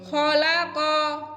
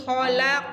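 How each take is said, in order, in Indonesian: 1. Kata ini berakhir dengan vokal a yang ditambahkan. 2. Kata ini berakhir dengan konsonan q yang dipantulkan. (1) "jadinya qaf fathah" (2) "kan harusnya kayak gitu ya"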